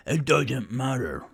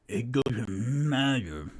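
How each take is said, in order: First: Thornin's Scottish brogue; Scottish accent. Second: Said in the usual way. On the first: Acted. Thornin the dwarf dismissing the excuse, Scottish accent. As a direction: roll it out with a Scottish lilt. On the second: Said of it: "Hold on. Scottish".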